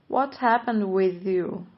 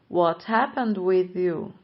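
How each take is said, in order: The two takes are said the same way.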